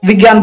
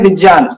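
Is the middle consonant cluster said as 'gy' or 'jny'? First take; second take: gy; jny. First: The middle cluster is said like gy. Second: The middle cluster is said like jny. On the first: This is the everyday way people say it. The speaker calls it wrong. "हम लोग विज्ञान बोलते हैं" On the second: This is the traditional Sanskrit way to say it. The speaker calls it right. "सही उच्चारण है विज्ञान ... ज और ञ का संयोजन है"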